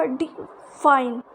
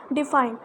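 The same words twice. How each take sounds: First: define said slowly, light डि, weight on fine; stress on FINE. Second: Said in the usual way. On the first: Shown as a demonstration. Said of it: "but fine पे हम जोर देते हैं". (Define में fine पर ज़ोर) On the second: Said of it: "डी पर हम इतना जोर नहीं देते".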